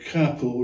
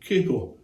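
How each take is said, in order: First: The first vowel is a short open 'a'. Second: The first vowel is a long 'ay' sound. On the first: It follows the Italian origin of the word. "I'm pronouncing the word capo" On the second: It follows English spelling rules for a single consonant. "rather than capo"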